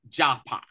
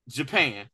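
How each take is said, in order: First: "Japan" said as "jah-pah"; native-style pronunciation. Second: Said in the usual way. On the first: Shown as a demonstration. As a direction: say "Japan" with open ah vowels in both syllables, "jah-pah". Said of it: "as they pronounced it". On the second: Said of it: "or as they call it".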